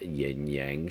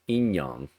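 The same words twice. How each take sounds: First: It is said with an Americanized pronunciation. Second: It is said with an original-style pronunciation. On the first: The speaker calls it wrong. "I've basically uh, Americanized it" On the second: The speaker calls it right. "that's the actual pronunciation"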